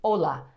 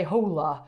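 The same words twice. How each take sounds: First: "Hola" starting straight on the O; silent H. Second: "hola" with an audible English H, as HOH-lah; sounded H. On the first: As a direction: say "Hola" with no H sound, as OH-lah. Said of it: "So the H is silent". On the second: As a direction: breathe out an H at the start of "hola". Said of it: "you didn't say hola". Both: Shown as a demonstration.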